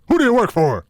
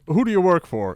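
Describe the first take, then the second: First: It is asked in a loud, confrontational tone. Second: It is asked in a calm, polite tone.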